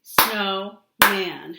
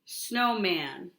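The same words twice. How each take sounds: First: "Snowman" louder, two strong beats; loud syllable-clapping demo; clapped syllables. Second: Said in the usual way. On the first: Shown as a demonstration. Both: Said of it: "Let's do it".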